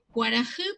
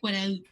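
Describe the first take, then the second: First: An h sound comes before the last vowel. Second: No h sound comes before the last vowel. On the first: This is the Paraguayan Guarani form. "para nosotros en el guaraní paraguayo es sol" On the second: This is the Mbya form. "para los mga esta palabra se pronuncia cuaraú"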